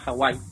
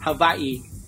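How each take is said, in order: First: The name is said with ordinary Spanish sounds. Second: The name is said with local Hawaiian sounds.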